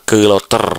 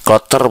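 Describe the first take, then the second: First: A short vowel separates the k and l. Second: The k and l are joined without a vowel. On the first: The speaker calls it wrong. "bukan keloter" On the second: The speaker calls it right. "Kloter bukan keloter"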